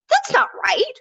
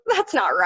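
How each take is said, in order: First: It is said in a genuinely angry tone. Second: It is said in a light, playful teasing tone. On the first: The speaker is truly upset. "actual genuine emotion. Um, sort of angry" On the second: The speaker is joking about something amusing. "It's funny. It's like teasing"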